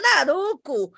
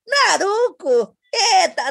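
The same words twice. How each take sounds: First: Said in the usual way. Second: Drawn-out, higher, proud Naruco with a laugh; proud show-off. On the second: Retold or imitated. Mother retelling how she proudly said the wrong name, mock-proud. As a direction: stretch the word Naruco like you are showing off. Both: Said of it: "eu dizia".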